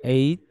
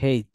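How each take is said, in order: First: The letter name starts with a vowel sound. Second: The letter name starts with an h sound. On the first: "variation আছে, যে একটা হচ্ছে এইচ" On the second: "এইচ আবার হেইচ, দুইটা বলতে পারেন"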